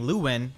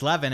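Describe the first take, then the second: First: The middle consonant is a w sound. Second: The middle consonant is a v sound. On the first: This is the localized form of the name. "instead of saying Lewin, like his uh, localized name" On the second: This is the original form the speaker is used to. "I just refer to uh, Levin as Levin"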